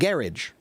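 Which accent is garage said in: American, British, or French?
British. The word is said with a British pronunciation. "the British pronounce it garage"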